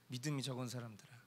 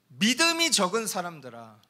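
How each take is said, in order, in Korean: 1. 차분하고 한숨 섞인 톤으로 말하고 있습니다. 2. 흥분되고 다급한 톤으로 말하고 있습니다. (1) "아휴, 믿음이 적은 사람들아 이렇게 얘기하셨겠죠" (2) "제가 좀 흥분해서 어, 믿음이 적은 사람들아 이렇게 읽었지만"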